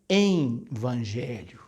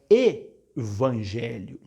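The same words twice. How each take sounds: First: An N sound is added before the V. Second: There is no N sound before the V. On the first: The speaker calls it wrong. "como se tivesse entre o E e o V um N" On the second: The speaker calls it right. "É evangelho"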